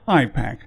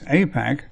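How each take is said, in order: First: The first syllable sounds like the letter I. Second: The first syllable sounds like the letter A. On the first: It stresses the link to Israel. The speaker calls it right. "I prefer to call it AIPAC, because it is definitely I for Israel-centric" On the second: It hides the link to Israel. The speaker calls it wrong. "the organization prefers AIPAC ... little to do with A for America"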